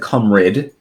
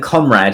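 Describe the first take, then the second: First: The word has an altered, nonstandard pronunciation. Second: The word has its usual standard pronunciation. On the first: The speaker calls it wrong. "he said comrade" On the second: The speaker calls it right. "Instead of saying comrade"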